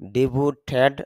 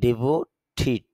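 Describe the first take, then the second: First: The last syllable has an 'eh' vowel. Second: The last syllable has an 'ih' vowel. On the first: The speaker calls it wrong. "ডিভোটেড না বলে" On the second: The speaker calls it right. "বলবো ডিভোটিড"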